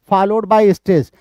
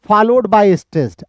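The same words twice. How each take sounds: The two takes are said the same way.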